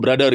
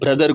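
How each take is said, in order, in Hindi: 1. यह जर्मन लहजे में बोला गया है। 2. यह सादे अंग्रेज़ी लहजे में बोला गया है। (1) "वहाँ के लोग ऐसी ही बातें करते हैं, वो ब्रदर को ब्रदर कहते हैं" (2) "वो ब्रदर को"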